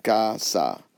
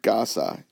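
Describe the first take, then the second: First: "casa" slowly broken into two syllables; split into syllables. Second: Said in the usual way. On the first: Shown as a demonstration. Teacher showing how to divide a word, "casa" syllable by syllable. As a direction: say "casa" with a gap between the syllables. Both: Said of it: "you would just divide it".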